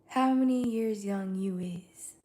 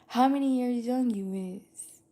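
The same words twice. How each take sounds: First: It ends flat like a statement. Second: It ends rising like a question.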